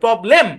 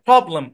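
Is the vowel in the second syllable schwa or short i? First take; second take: short i; schwa. First: The second syllable has a short i vowel. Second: The second syllable has a schwa vowel. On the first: "ই এর short sound দিয়ে উচ্চারণ করেন" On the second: "original শোয়া sound হবে"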